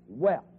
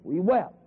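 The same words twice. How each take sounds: The two takes are said the same way.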